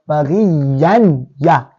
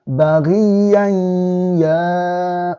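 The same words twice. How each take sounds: First: The n sound is pronounced clearly before the y. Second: The n sound is merged into the following y. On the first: The speaker calls it wrong. "we are not saying baghiyan, ya. That will be izhar" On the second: The speaker calls it right. "it will be infused into themselves"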